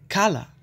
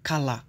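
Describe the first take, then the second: First: The stress falls on the first syllable. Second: The stress falls on a later syllable. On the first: The speaker calls it right. "É cala" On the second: The speaker calls it wrong. "não cala"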